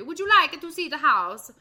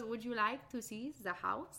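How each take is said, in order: First: Higher, louder mock Italian old lady. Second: A light French accent, a hint of an old lady. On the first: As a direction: redo the line as an Italian old woman, hand gesture and all. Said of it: "but she's Italian in the movie". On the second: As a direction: invite gently in a mock French accent. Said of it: "I made her French".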